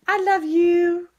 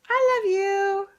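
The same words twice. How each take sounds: First: High, slow cooing. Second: High sing-song coo. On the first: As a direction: coo it to a pet. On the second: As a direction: croon it to a pet. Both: Real, not acted. Cooing to the dogs.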